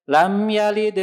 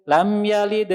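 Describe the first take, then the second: Both takes have the same delivery.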